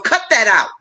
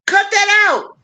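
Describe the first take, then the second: First: Said in the usual way. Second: Much higher, insistent second take; playful scolding, voice jumping up high; sharper repeat. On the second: Acted. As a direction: say it again, pitched up to drive it home.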